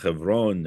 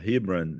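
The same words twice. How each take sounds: First: The name is said with a Hebrew pronunciation. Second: The name is said with an English pronunciation. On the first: "in our occupiers' uh, vernacular" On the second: "in English"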